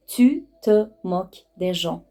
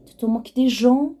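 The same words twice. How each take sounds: First: Slow word-by-word teaching delivery; measured, separated words at normal pitch; slow articulation. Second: Quick, higher-pitched rising question; brisk accusing question, pitched up; indignant question. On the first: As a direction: space out each word for learners. Same phrase broken down for learners. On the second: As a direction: challenge them with a rising "تو تو موک دی ژان؟". Phrase as question, then taken slowly. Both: Shown as a demonstration.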